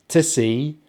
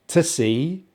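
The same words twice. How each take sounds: No difference in how they are said.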